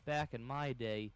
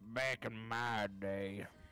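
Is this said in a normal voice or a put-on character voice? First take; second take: normal; character voice. First: It is said in the speaker's normal voice. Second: It is said in a put-on character voice.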